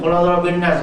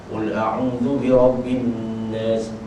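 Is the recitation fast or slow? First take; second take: fast; slow. First: The verse is recited quickly. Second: The verse is recited slowly. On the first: The speaker calls it wrong. "laju sangat tu" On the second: The speaker calls it right. "Dia cakap elok"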